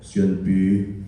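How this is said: It imitates how the speaker's dad says it.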